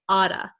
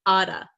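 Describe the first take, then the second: First: The T is flapped and sounds like D. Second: The same.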